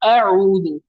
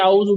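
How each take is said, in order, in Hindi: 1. पहले हमज़ा, फिर अलग गले की आवाज़। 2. दोनों गले की आवाज़ें एक में मिल गई हैं। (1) "पहले हमजा है फिर आइन है।" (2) "हालांकि ये गलत है।"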